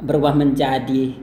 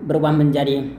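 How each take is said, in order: The two takes are said the same way.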